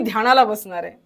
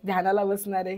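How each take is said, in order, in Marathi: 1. हे आनंदाने, उत्साहाने म्हटलं आहे. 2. हे नाराजीने, नाईलाजाने म्हटलं आहे. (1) "उत्साह असला पाहिजे" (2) "असं नसलं पाहिजे"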